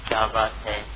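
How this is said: It is said in a questioning, inquiring tone. The speaker is asking what the matter is. "تو اس کا مطلب ہے کہ میں سائل ہوں، پوچھ رہا ہوں"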